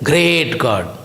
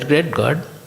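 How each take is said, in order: First: It is said with strong feeling on great. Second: It is said flatly, without feeling. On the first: The greatness of God is truly felt. The speaker calls it right. "you will say" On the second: The words are said without grasping their meaning. The speaker calls it wrong. "You will not say great God. You won't say like that"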